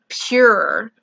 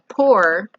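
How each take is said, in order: First: The vowel has a 'you' sound, like 'pure'. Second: The vowel sounds open, like 'pour'. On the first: "and I say pure" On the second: "it sounds like you're saying a pour"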